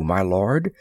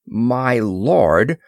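First: Said in the usual way. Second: Incredulous rising question; squawked echo. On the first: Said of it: "said the princess simply". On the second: A narrator's reading. Moore echoing the princess's title, with a startled squawk. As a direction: echo it back in mild squawking disbelief. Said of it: "squawked Moore".

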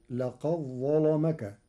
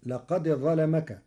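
First: لقد ظلمك with the dal merged into a doubled heavy ظ; Warsh assimilation. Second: Said in the usual way. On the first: Shown as a demonstration. Teacher showing the dal absorbed into the ظ. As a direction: recite لقد ظلمك as laqa-ẓẓalamak. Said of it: "فتصير". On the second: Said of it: "بإدغام الدال في الظاء".

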